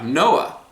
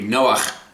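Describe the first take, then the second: First: The name ends in a plain vowel. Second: The name ends in a throaty consonant.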